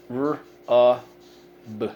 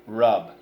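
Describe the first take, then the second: First: "R-U-B" in three isolated sounds with gaps; sounded out. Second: Said in the usual way. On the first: Shown as a demonstration. Teacher leading pupils through the word, sounded out. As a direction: say each sound of "R-U-B" on its own.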